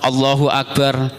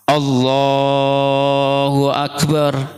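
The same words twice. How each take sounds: First: It is said quickly and casually, without feeling. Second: It is said slowly and earnestly, with deep feeling. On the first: The prayer is done out of habit. The speaker calls it wrong. "biasanya cuma Allahu Akbar" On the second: The prayer is done as if it were the last. The speaker calls it right. "dia betul sungguh-sungguh, takbirnya pun berbeda"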